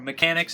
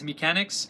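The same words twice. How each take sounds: First: The title is pronounced the English way. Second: The title is pronounced the French way. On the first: "as I'll be saying for the rest of the review" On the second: "it is a French film, hence the pronunciation"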